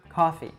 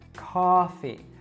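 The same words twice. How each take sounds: First: A short ah vowel, standard American style. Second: A long, drawn-out vowel, New York style. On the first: "in a standard American accent, we would say these words with an ah sound" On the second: "New Yorkers can really exaggerate that sound, really drawing it out"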